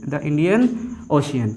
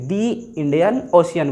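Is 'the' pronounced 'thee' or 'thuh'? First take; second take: thuh; thee. First: 'The' is pronounced with a short 'thuh' vowel. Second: 'The' is pronounced with a long 'thee' vowel. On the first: The speaker calls it wrong. "जैसे बोल दिए द" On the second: The speaker calls it right. "द Indian नहीं बल्कि क्या बोलेंगे, दी Indian ocean बोला जाएगा"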